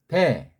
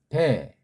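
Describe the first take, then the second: The two takes are said the same way.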